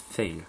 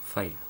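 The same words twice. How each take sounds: First: "Fail" said with an "eh" vowel, like English "fail"; unsure pronunciation. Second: "File" said with an "eye" vowel, like English "file"; retry it as "File", rhyming with "mile"; alternative pronunciation. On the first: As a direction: try "Fail" with an e sound. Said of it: "File, je sais pas comment". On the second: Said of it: "je sais pas comment". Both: Shown as a demonstration.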